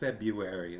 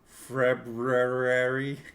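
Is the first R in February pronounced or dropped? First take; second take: dropped; pronounced. First: The first R is dropped and the U stressed. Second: The first R is clearly pronounced. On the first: "you really enunciate the U too. Like it's really February. Like really need to let people know that I'm skipping that first R" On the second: "It really had more R's"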